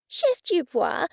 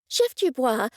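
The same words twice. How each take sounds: First: Slow, higher lightly voiced woman; Cressida's voice. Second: Said in the usual way. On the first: Cressida addressing the chef, drawn out and higher. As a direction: call his name, drawn out and high.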